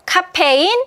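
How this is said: It is said as a Korean loanword, syllable by syllable. The speaker calls it wrong. "카페인 아니고"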